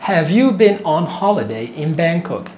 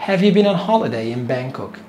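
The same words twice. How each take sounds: First: Very slow, every word stretched; slow teaching demo. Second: Said in the usual way. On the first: Shown as a demonstration. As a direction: spell out the question for learners. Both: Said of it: "تعال نسمع".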